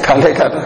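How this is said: It is said as a friendly calling out. The speaker is calling someone to come and eat. "बुलाना हो सकता है"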